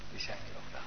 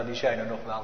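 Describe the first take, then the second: First: "Die zijn er nog wel" breathed as a soft whisper; whispered echo. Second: Said in the usual way. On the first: Shown as a demonstration. Preacher echoing himself to the congregation, whispered. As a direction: let the repeat drop to a whisper.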